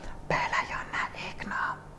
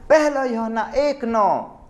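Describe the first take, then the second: First: It is said softly and slowly. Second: It is said loudly.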